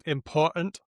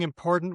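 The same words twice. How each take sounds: First: The middle t is a glottal stop. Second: The middle t is voiced like a d. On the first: "it might be a glottal stop" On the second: "saying important with a D"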